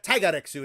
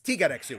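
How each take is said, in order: First: The first vowel is the 'eye' sound of tiger. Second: The first vowel is not the 'eye' sound. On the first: The speaker calls it wrong. "So it's not Taigareksu" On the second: The speaker calls it right. "it's Tigareksu, which sounds a bit more Japanese"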